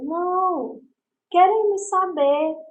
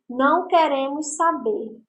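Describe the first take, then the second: First: There is a pause after não. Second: It is said with no pause after não.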